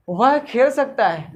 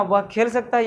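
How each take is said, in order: First: Slow, deliberate example sentence, a bit louder; teacher spelling out वह खेल सकता है word by word; slow example read. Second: Said in the usual way. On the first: Shown as a demonstration. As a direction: read it out slowly and loudly for the class. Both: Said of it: "जी हाँ".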